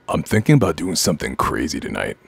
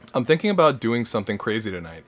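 First: It is read in a spooky voice. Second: It is read in a normal voice.

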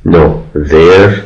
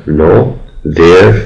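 The two takes are said the same way.

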